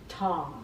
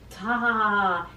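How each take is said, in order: First: The vowel falls back in the mouth. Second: The vowel is placed forward in the mouth. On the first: The speaker calls it wrong. "where things kind of fall backwards" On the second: The speaker calls it right. "as your ah sound is going forward"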